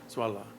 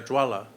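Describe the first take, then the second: First: The word begins with a Z sound. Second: The word begins with a J sound. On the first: "Tibetans pronounce it Zola, which is easier" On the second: "it's pronounced Jwala"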